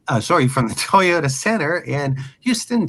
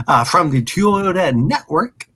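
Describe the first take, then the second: First: Said in the usual way. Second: Tongue-tied slip; stumbling over the name; brain freeze. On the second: Real, not acted. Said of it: "Ah, my brain".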